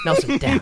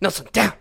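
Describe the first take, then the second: First: It is said slowly and gently. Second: It is said forcefully and firmly.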